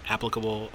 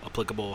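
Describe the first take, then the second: First: "Applicable" with stress on the first syllable, AP-pli-ca-ble; AP-plicable. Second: "applicable" with stress on the second syllable, a-PLIC-a-ble; ap-PLIC-able. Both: Shown as a demonstration. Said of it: "however you wanna say it".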